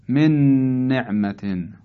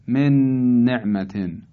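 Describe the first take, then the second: Both takes have the same delivery.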